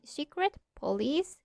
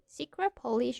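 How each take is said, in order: First: The end of secret is a clear t sound. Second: The end of secret sounds like a p. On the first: "like we speak normally" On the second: "using this uh, simulation"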